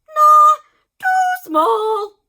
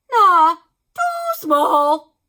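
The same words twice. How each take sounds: First: High, loud snap; dismissive doctor. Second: Slow, high, loud and drawn-out; dismissive doctor. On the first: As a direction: reject it fast and high. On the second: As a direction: drag it out, scornful. Doctor judging needle. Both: A narrator's reading.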